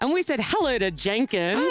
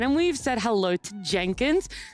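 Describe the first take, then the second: First: It sounds like an obvious greeting to Jenkins. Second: It sounds like a plain statement, not a greeting.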